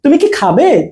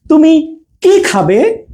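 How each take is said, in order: First: "তুমি কি" said fast as one unit, then "খাবে"; short "কি", no pause, yes-no question; quick attached কি. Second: Slow, gap after "তুমি", long weighted "কি"; pause, then stretch "কি" into "খাবে"; space before কি. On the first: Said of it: "এটার সাথে কিন্তু আমরা দ্রুত উচ্চারণ করব". ("তুমি কি" দ্রুত একসাথে, "কি" হ্রস্ব) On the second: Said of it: "একটু স্পেস দিচ্ছি". ("তুমি"-র পরে থেমে "কি" দীর্ঘ) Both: Shown as a demonstration.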